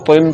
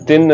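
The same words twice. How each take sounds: First: तिन with a thick emphatic T, like "toin"; rounded Arabic T in तिन; heavy T. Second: तिन with a light dental T; thin out the त in तिन; wrongly thin T. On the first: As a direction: fatten the त in तिन. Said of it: "इसी तरह तिन पढ़ना है". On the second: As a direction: mistaken plain "tin" for तिन. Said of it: "तिन नहीं पढ़ना". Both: Shown as a demonstration.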